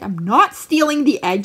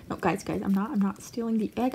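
First: Louder mock protest, stress on "not"; Bean. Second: Low, soft voiced excuse from a rat; Bean. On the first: Rat accused of stealing, loud insistence on "not". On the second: Rat caught stealing egg, low soft mock denial. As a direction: play the rat's quiet, low denial. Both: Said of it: "She's like".

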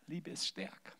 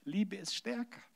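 First: Much softer echo of the refrain; a softer, intimate repeat of the refrain; quiet. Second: Said in the usual way. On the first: Shown as a demonstration. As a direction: let "Liebe ist stärker" fall to a soft echo.

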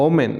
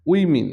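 First: ওমেন as "o-men"; common mispronunciation. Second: উইমেন as "WIM-in"; correct pronunciation. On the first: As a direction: say ওমেন with an o at the start. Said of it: "common কিছু শব্দের". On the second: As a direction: start উইমেন with "wi". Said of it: "ও সঠিক উচ্চারণ". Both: Shown as a demonstration.

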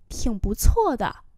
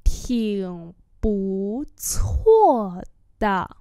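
First: Said in the usual way. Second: 挺不错的 syllable by syllable; slow demonstration. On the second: Shown as a demonstration. Teacher repeats "挺不错的" for learners, very slowly. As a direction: draw out 挺不错的.

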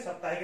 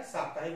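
First: साप्ताहिक with short first vowel, "sap-"; wrong pronunciation. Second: साप्ताहिक with long first vowel, "saap-"; correct pronunciation. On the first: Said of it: "साप्ताहिक नहीं होता है". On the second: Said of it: "साप्ताहिक होता है". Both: Shown as a demonstration.

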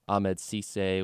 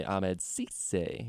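First: Said in the usual way. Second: Ahmed Cisse stretched out very slowly; savoring the name. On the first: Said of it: "which my favorite name, say". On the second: Shown as a demonstration. Co-host shows off favorite player name, Ahmed Cisse drawn out. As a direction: draw out "Ahmed Cisse", relishing each syllable. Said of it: "my favorite name, say Ahmed Cisse".

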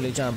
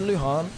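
First: "Lujan" with an English j sound. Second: "Luhan" with a breathed h for the j. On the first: Streamer checking a viewer's name, "Lujan" with a hard j. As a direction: say "Lujan" as loo-JAHN. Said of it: "but is it Luhan?". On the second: Streamer checking a viewer's name, "Luhan" with an h. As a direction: say "Luhan" as loo-HAHN. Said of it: "I said Lujan". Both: Shown as a demonstration.

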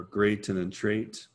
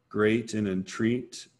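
First: "entreat" said like "entrate", rhyming with "great"; alternate rhyme pronunciation. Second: Said in the usual way. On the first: Shown as a demonstration. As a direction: read "entreat" with an AY vowel to match "great". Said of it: "depending on how you kind of read those".

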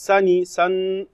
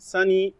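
First: "sunny" then just "sun" to isolate the N sound; syllable split. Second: Said in the usual way. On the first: Shown as a demonstration. Teacher to class, isolating the double N: clipped syllable.

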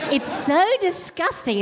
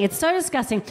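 First: "so" stretched and high; disgusted. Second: Said in the usual way. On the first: Shown as a demonstration. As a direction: lean hard on "so" in disgust.

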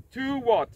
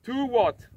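The two takes are said the same way.

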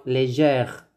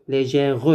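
First: Légère ending right on the R; low, slow correct légère in two syllables; silent final E. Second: Légère with an extra « re » syllable at the end; low-pitched counterexample, légère said as lé-gè-reu; final E wrongly sounded. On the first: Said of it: "non, légère". (légère, le R prononcé et le E muet) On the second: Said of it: "mais ce n'est pas le E". (légère, faute avec le E final prononcé) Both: Shown as a demonstration.

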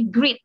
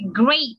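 First: "great" with a long ee; mispronounced as "greet". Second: "Great" with an ay vowel; correct pronunciation. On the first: Retold or imitated. Teacher quotes a student's misreading, "great" said as "greet". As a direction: misread "great" to rhyme with "feet". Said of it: "masih ada yang bacanya great". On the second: Shown as a demonstration. Teacher shows how to read it, "Great" like "grayt". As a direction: say "Great" to rhyme with "late". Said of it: "ini cara bacanya seperti ini".

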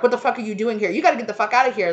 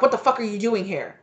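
First: Higher, louder and fast, ordering someone out; hammed-up furious eviction; mock angry yell. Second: Startled, sharp and a bit higher; mock angry confrontation. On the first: Throwing the intruder out. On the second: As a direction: catch an intruder in your bedroom, half-acted. Mistress confronted in bedroom.

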